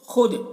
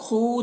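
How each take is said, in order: First: The vowel is kept short. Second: The vowel is drawn out long. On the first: The speaker calls it right. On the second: The speaker calls it wrong.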